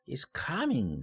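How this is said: The pitch rises sharply, then falls. It expresses surprise. "놀라울 때 ... 쫙 올라갔다가 내려오는 것이죠"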